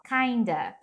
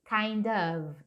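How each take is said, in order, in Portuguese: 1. O 'of' encolhe para um som curto de 'a'. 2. As duas palavras são pronunciadas por completo, com um 'of' bem claro. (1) "é muito comum eles pronunciarem meio assim, ó, kinda" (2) "Cuidado com a pronúncia disso daqui, é of"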